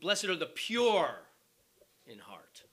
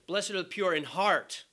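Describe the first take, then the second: First: The stress is on the word pure. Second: The stress is on the word heart.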